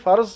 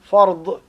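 First: The word ends with a z sound. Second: The word ends with an emphatic d sound. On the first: "Некоторые произносят через «з» фарз" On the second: "через эмфатическое «б» фард"

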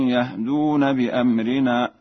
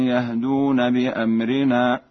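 The two takes are said the same way.

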